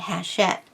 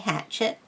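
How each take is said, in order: First: It starts with an H and a 'sh' sound. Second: It starts with an H and a 'ch' sound. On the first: "the C H makes the sh sound. So they were saying hachette. However, that is wrong as well" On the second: "people used to say hatchet for how to pronounce that word. Uh, that is wrong"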